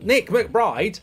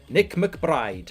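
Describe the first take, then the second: First: It is said in a put-on silly voice. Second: It is said in his ordinary voice.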